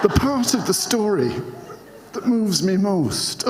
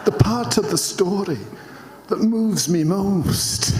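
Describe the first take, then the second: First: Put-on higher Scottish accent retry, laughing through it. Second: A Scottish attempt that drifts into Frank Spencer; accidental Frank Spencer. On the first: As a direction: give the Scottish accent another go while giggling. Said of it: "try and do this in a Scottish accent". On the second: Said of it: "I think that was Frank Spencer".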